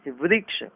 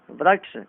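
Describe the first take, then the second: First: वृक्ष said as "vriksh"; correct "ri" sound. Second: वृक्ष said as "vraksh"; wrong "ra" sound. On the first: Teacher correcting it, वृक्ष with ri. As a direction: use a clear "ri" in वृक्ष. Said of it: "गलत". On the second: Teacher showing the error, वृक्ष with ra for ri. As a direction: use "ra" in वृक्ष. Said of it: "गलत, वृक्ष". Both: Shown as a demonstration.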